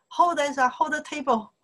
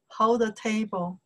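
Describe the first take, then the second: First: Higher, urgent call to hold the table; urgent order. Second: Said in the usual way. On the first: Retold or imitated. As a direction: pretend someone urgently grabbing the wobbly table. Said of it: "Maybe somebody say". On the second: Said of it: "it means".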